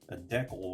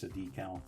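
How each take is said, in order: First: It is said the Canadian way. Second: It is said the American way.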